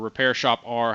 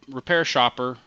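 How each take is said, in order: First: The name ends with the letter R spoken. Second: The name ends with a soft 'er' sound. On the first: "or Repair Shop R, however you want to pronounce it"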